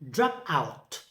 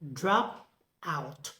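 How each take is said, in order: First: The stress falls on the second word. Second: The stress falls on the first word. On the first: It is used as a verb. "For the verb construct" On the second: It is used as a noun. "Noun construct"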